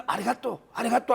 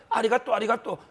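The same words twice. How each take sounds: First: Mock Japanese accent. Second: Laughing mock Japanese. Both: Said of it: "일본 사람 흉내를 내면서".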